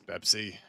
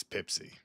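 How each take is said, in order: First: Said in the usual way. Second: "Pepsi" said as "Pipsi"; first vowel of "Pepsi" raised to "pip"; altered vowel. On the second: Pretend. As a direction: say "Pepsi" with a short i in the first syllable. Corrects brand to odd vowel.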